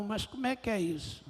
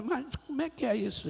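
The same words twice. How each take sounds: First: Said in the usual way. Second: Repete a pergunta mais alto e rápido, sem paciência; insistindo, impaciente. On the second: Retold or imitated. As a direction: cobrando uma resposta, acelerado. (pergunta insistente ao Senhor, mais rápida)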